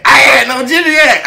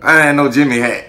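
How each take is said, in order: First: "I had no Jimmy hat" yelled much higher and louder; hammed-up high-pitched yell. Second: Emphatic. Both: Shown as a demonstration. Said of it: "repeats the line".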